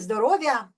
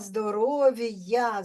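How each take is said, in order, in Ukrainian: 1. «В» пом'якшується і зливається з «я». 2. Тверде «в» стоїть перед окремим «я». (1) "Не здоров'я" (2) "Роздільна вимова"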